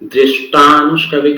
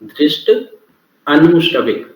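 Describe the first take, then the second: First: The two words are merged into one word. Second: The two words are said separately. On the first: "अब एक साथ पढ़ेंगे तो" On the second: "पहला word है दृष्ट। दूसरा है अनुश्रविक"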